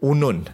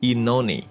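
First: The name is said as two syllables ending in n. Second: The name is said as three syllables ending in ee. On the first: The speaker calls it wrong. "pengucapan nama yang luar biasa salah" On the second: The speaker calls it right. "yang benar adalah Inoni"

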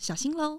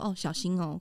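First: It is said in a playful, lively way. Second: It is said in a plain, normal way.

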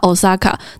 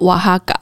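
First: The middle consonant is an s sound. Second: The middle consonant is an h sound. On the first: The speaker calls it wrong. "很多人都会直接念它Osaka" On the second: The speaker calls it right. "它的正确发音其实是瓦哈嘎"

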